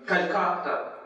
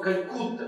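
First: The second syllable has an English-like 'a' vowel. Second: The second syllable has a Russian 'u' vowel. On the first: It follows the newer English-influenced pronunciation. "начинают говорить, скажем, «Калькатта»" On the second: It follows the traditional Russian pronunciation. "вместо традиционного «Калькутта»"

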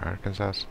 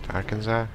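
First: The final S is pronounced. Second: The final S is silent. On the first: "or not?" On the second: "is it S silent"

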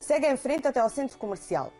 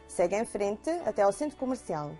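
First: It is said firmly, as a command. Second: It is said neutrally, as helpful directions. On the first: The speaker is ordering the listener to go. "se eu quero expressar uma ordem, eu digo" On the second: The speaker is just giving directions. "Se for uma indicação, eu digo"

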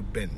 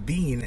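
First: The vowel is a short 'e' sound. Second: The vowel is a long 'ee' sound. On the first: "بأمريكا يصير بن" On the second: "لو نطقتها been هذا يصير إيش؟ UK accent يصير اللهجة البريطانية"

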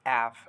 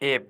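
First: The letter begins with an open 'a' vowel. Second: The letter begins with an 'eh' vowel. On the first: The speaker calls it right. "এটা সঠিক উচ্চারণ হবে অ্যাফ" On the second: The speaker calls it wrong. "আমরা এটাকে সাধারণত বলে থাকি এফ"

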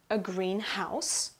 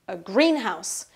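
First: The stress falls on 'house'. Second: The stress falls on 'green'. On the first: It is a house that is green. "a simple adjective plus a noun" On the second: It is a place where you grow plants. "a compound noun which has a different meaning"

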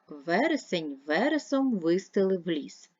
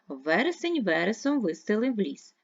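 First: The line is read at a slow pace. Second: The line is read at a quicker pace. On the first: "прочитайте скоромовку повільно" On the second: "Тепер читаємо швидше"

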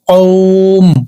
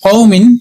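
First: The word ends abruptly with no final syllable. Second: The word ends with a full '-min' syllable. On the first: The reader pauses and stops at this word. "অক্ষ পড়লে কৌম" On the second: The reading continues without stopping here. "উচ্চারণ হবে কৌমিন"

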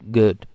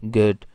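No difference in how they are said.

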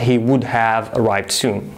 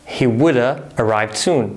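First: 'Would have' is said in full. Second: 'Would have' is reduced to 'woulda'. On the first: The speaker calls it wrong. "Not he would have arrived soon" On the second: The speaker calls it right. "Would have becomes woulda"

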